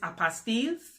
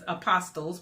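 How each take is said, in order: First: The word sounds like 'apostilles'. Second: The word sounds like 'apostles'. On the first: The speaker calls it right. "but the correct way to say it is" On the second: The speaker calls it wrong. "That's what everybody says"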